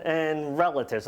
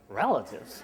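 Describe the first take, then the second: First: Said in the usual way. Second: "Relatives?" said low and soft, let down; deflated echo. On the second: Retold or imitated. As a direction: drop the voice on "Relatives?" in quiet dismay.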